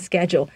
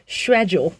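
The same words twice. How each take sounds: First: It is said with an American accent. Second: It is said with a British accent.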